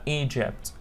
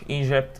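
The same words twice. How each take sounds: First: The g is a soft sound, as in jam. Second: The g is a hard sound, as in go. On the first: The speaker calls it right. "لا Egypt. That's the right pronunciation" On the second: The speaker calls it wrong. "مش Egypt"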